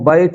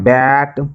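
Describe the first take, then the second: First: The vowel glides like a Hindi 'ai' sound. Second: The vowel is a flat open 'a' sound. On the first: The speaker calls it wrong. "इसको बैट बोलते नहीं हैं" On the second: The speaker calls it right. "इसको बोलते हैं बैट"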